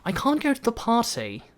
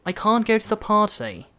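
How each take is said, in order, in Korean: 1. 영국식 억양입니다. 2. 영국식 억양입니다.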